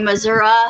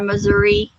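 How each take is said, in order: First: It is said with a local Oklahoma pronunciation. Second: It is said with the other, usual pronunciation. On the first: This is how locals say it. "Okies we say Missouri" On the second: This is how others say it. "instead of Missouri"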